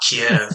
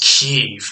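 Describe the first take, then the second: First: The name is said the traditional English way. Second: The name is said the Ukrainian way. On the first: This is the long-familiar form. "we've been pronouncing it Kiev for as long as I've been alive" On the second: This is the newer form heard on the news. "it's Kiev in Ukrainian"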